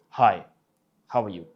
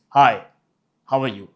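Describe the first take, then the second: First: Deep, less authoritative. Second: Firm, punched deep greeting; deep, authoritative. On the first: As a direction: say it deep but less commanding. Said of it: "the pitch was the same, but you felt the difference in tone". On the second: Coach showing tone difference, deep and authoritative. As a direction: land a loud, commanding hi. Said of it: "the tone in the first one was authoritative". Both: Shown as a demonstration.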